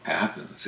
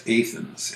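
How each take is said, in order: First: Said in the usual way. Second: Athens as AY-thenz; long A at the start of Athens; Illinois pronunciation. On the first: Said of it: "most of us call Athens". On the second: Shown as a demonstration. Telling how Illinois and Kentucky say it, Athens with a long A. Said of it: "is referred to as Athens".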